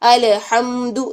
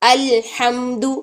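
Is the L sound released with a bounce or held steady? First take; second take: bounced; held. First: The L sound is released with a small bounce. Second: The L sound is held steady briefly. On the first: The speaker calls it wrong. "अलहम्दु नहीं" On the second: The speaker calls it right. "लाम को पकड़ के रखें"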